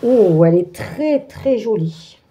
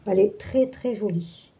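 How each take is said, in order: First: Said in the usual way. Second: Softer repeat, fading almost to nothing; quiet echo. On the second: Real, not acted. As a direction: murmur it again to yourself, trailing away. Repeats the compliment to herself. (répété à mi-voix, qui s'éteint)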